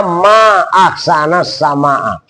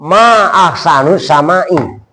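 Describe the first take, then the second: First: Slow, "ahsana sama'a" with fatha endings; correct reading. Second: Slow, "ahsanu" with u and "sama'i" with i; wrong reading. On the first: Teacher showing how the daughter should have said it. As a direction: read "ma ahsana sama'a" slowly. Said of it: "harusnya ngomongnya putrinya". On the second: Teacher showing the daughter's wrong reading. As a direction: read "ma ahsanu sama'i" slowly. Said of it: "putrinya kan ngomongnya". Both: Shown as a demonstration.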